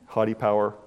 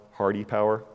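First: "Haughty" said as HAW-tee, no r. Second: "hearty" said as HAR-tee with a clear r. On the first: Preacher spelling out his pun on Haughty, said as haw-tee. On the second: Preacher spelling out his pun on hearty, said har-tee with r. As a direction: say "hearty" with the r sounded. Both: Shown as a demonstration. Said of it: "that's a bad pun".

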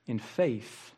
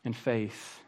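No difference in how they are said.

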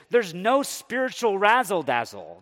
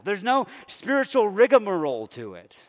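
First: "no" hit hard and louder; stress on no. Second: "spiritual" punched louder, higher; stress on spiritual. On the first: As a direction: lean on "no" in "no spiritual razzle-dazzle". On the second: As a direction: lean on "spiritual" in "spiritual rigmarole". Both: Acted. Stressing contrast in mock Naaman complaint.

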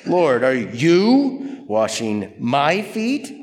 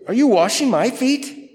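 First: Slow, incredulous question leaning on "you" and "my"; stretched "you", rising hard on "my feet"; stress on YOU and MY. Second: Said in the usual way. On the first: Shown as a demonstration. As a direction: draw out "you", then lift "my feet" into a question. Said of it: "we should read it this way". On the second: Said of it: "Actually, we should read it this way".

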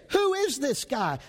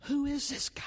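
First: Said in the usual way. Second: Breathy whisper of wonder, higher; awed whisper. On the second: Acted. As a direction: whisper it like a secret marvel. Preacher wonders aloud about servant.

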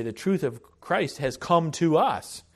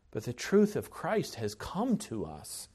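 First: Lifted, stressing "come to us"; emphatic restatement. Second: Said in the usual way. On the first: Shown as a demonstration. Preacher correcting himself to the congregation, emphatic. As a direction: land firmly on "us" as a correction. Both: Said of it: "Or I should say".

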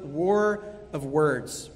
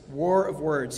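First: War of Words spoken slowly, each word weighted; "War of Words" drawn out to stress the book title; slow title emphasis. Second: Said in the usual way. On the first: Shown as a demonstration. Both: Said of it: "in his book".

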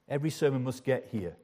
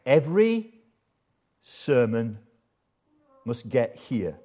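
First: Said in the usual way. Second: Every, sermon, must get here, each word set apart with long pauses; emphatic, word by word. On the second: Shown as a demonstration. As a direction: hammer each word home. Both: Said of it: "let me emphasize again".

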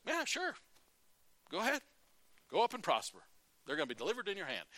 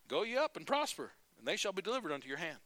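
First: High, mocking "sure, go ahead"; sarcastic. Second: Said in the usual way. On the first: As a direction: drip sarcasm, start high. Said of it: "I can just hear the sarcasm in his voice". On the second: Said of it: "And Micaiah says".

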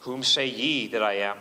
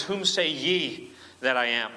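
First: Lower, King James reading voice; solemn scripture quote. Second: Slowed, weight on say; slow pointed question. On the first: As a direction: intone the old words gravely. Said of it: "the question is put to them now". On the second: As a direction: ask it slowly, word by word. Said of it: "that is a plural". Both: Shown as a demonstration.

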